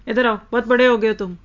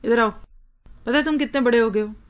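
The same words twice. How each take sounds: First: Fast, slightly louder scolding taunt; mock-scolding parent, बड़े hit hard. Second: Scolding taunt. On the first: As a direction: taunt the child for acting grown. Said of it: "मुझे इस तरह बोलना भी अच्छा नहीं लगता". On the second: Retold or imitated. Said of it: "हम अमूमन क्या बुलाते हैं?".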